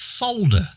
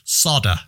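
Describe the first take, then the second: First: The word is said with a clear L sound. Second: The word is said without any L sound. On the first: The speaker calls it right. "It's solder" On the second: The speaker calls it wrong. "why they can't pronounce the letter L"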